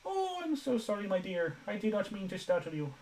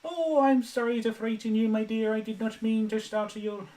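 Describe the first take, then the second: First: Very high falsetto, gliding down; Missus Doubtfire. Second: Very high, put-on nanny voice; Missus Doubtfire. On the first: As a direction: coo the apology in a high nanny voice. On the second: Streamer with a dry throat attempts the impression, high-pitched. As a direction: apologise in a high, loud character falsetto. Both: Shown as a demonstration. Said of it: "an impression of, um, Missus Doubtfire".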